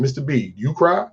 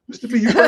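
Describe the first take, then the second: First: Said in the usual way. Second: High-pitched put-on questioner; high mimicked question. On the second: Young man asks his mentor if he cries, high mimicking voice. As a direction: ask it way up high, imitating someone.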